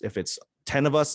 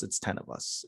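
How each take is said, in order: First: Said in the usual way. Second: Whispered, much softer, as if for a tiny crowd. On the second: Shown as a demonstration. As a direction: drop to a whisper for ten people. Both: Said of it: "whatever the audience is".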